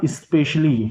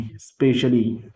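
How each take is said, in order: First: "specially" with a clear short i sound before the s, as in especially; said with initial e. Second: "specially" started straight on the s, drawn out very slowly; very slow "specially" with no vowel before the s; plain specially. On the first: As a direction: start "specially" with an added i sound: ispeshally. ("specially" को शुरू में इ लगाकर बोलें: इस्पेशली) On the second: ("specially" बिना इ के, बहुत धीरे: स्पेशली) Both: Shown as a demonstration. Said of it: "इसका प्रोनंसिएशन क्या निकलेगा?".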